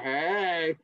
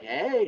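First: Flirty rabbit. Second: Higher, flirty hello; flirty cheerleader. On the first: Rabbit answers the cheerleader, flirty. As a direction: play a rabbit flirting back. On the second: Cheerleader greets the rabbit, flirty. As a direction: play a flirting squirrel cheerleader. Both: Acted. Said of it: "animals flirting with each other".

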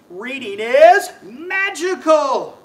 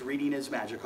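First: Sung, loud, slow, higher magic words; sung, magic incantation. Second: Said in the usual way. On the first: Pretend. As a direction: chant it big like a spell, slowly. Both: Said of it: "we'll say our magic words".

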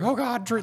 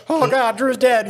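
First: High alarmed "Oh, God, Drew."; alarmed cry. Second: High, slow imitated panic; panicked cry. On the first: Retold or imitated. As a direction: call his name in sudden alarm, pitched up. Teammates panic over knocked-out Drew. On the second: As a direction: wail it like the driver thinks he's dead. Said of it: "driver's like".

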